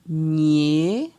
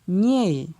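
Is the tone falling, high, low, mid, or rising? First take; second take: rising; falling. First: The syllable is said on a rising tone. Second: The syllable is said on a falling tone. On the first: "Ton euh, montant" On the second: "avec un ton descendant"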